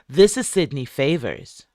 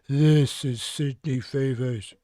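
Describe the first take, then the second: First: It is said in a normal voice. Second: It is said in a deep voice.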